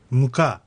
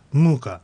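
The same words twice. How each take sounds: First: ムカ slowly, first syllable weak and the second one stressed; Russian stress on second syllable. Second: ムーカ with the first syllable stressed and long; Russian stress on first syllable. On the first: Teacher demonstrating Russian word for flour, second syllable stressed. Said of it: "最初の音節が弱くて次が強く発音". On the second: Teacher demonstrating Russian word for torment, first syllable stressed. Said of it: "最初の音節が強く". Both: Shown as a demonstration.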